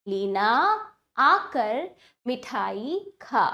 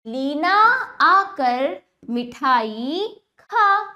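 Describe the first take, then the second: First: Leena आकर मिठाई खा slow, settling lower; relaxed, slow repeat of Leena आकर मिठाई खा; measured repeat reading. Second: Leena आकर मिठाई खा very slow, projected; word-by-word first reading of Leena आकर मिठाई खा; slow demonstration reading. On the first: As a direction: pause between words, easing down to खा. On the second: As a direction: draw out खा, pausing between words. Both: Shown as a demonstration. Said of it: "अब वाक्यों का उच्चारण करते हैं".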